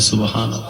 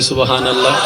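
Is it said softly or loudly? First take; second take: softly; loudly. First: It is said at normal, softer volume. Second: It is said more loudly.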